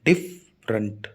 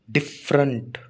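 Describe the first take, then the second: First: "डिफरेंट" as डिफ, pause, रेंट; split into syllables. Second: Said in the usual way. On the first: Shown as a demonstration. Teacher showing students two sounds, "डिफरेंट" split in two. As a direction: say "डिफरेंट" slowly in two low, separate beats. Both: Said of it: "दो sound है ना".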